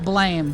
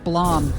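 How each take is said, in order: First: The vowel is an 'ay' sound, as in 'day'. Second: The vowel is an open 'ah' sound. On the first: The speaker calls it wrong. "Not blame" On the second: The speaker calls it right. "it's supposed to be pronounced Blom"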